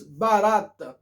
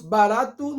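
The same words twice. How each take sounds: First: "barata" said as barato with its ending swallowed; "barata" clipped to "ba-RAT"; foreigners' mispronunciation. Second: "barato" with the final O voiced as "oo"; correct full ending. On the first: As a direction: end "barata" on a bare T, like "barat". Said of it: "nós digamos barata". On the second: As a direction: pronounce every letter of "barato", ending "-tu". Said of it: "todas as letras se pronunciam". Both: Shown as a demonstration.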